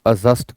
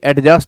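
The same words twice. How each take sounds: First: No separate d sound comes before the j. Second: A clear d sound comes before the j. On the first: The speaker calls it right. "आप एडजस्ट कहें" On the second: The speaker calls it wrong. "एडजस्ट ना कहें"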